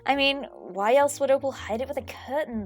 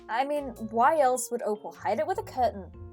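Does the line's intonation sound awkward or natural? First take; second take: natural; awkward. First: The intonation of the line sounds natural. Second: The intonation of the line sounds awkward. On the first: The speaker calls it right. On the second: The speaker calls it wrong.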